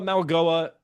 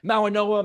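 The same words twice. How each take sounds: First: "Mawagoa" with a hard G, pitched high; spelled G pronunciation. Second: "Mawanoa" with an N, pitched high; common N pronunciation. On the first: Host comparing two versions of a name, "Mawagoa" with G. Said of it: "it's spelled Mawagoa". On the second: Host comparing two versions of a name, "Mawanoa" with N. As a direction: say "Mawanoa" with N before the final "oa". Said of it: "there's no N in his name". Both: Shown as a demonstration.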